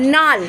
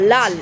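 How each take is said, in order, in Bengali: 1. শব্দটি n ধ্বনি দিয়ে শুরু হয়। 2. শব্দটি l ধ্বনি দিয়ে শুরু হয়। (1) "এটাকে আমরা নাল বলে ফেলি" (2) "লাল যে কথাটা"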